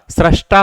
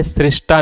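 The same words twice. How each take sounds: First: सृष्टा said "srashta", with a after sr; correct form "srashta". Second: सृष्टा said "srishta", with i after sr; wrong form "srishta". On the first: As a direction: say सृष्टा with an open "sra". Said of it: "सृष्टा होता है". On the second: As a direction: say सृष्टा with a short "sri". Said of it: "सृष्टा नहीं होता है". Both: Shown as a demonstration.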